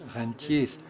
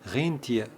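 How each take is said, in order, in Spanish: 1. Se pronuncia a la manera francesa. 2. Se pronuncia a la manera alemana.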